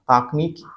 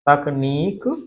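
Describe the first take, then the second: First: The first vowel is a long 'aa'. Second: The first vowel is a short 'a'. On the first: The speaker calls it wrong. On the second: The speaker calls it right.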